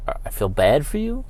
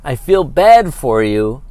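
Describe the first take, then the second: First: Quiet, disbelieving echo with a rising end; incredulous repeat. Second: Said in the usual way. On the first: Real, not acted. Host echoing the ump's words in disbelief, incredulous. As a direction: repeat it like you can't believe he said it. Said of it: "I'm sorry, when I scream". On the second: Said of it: "and he says".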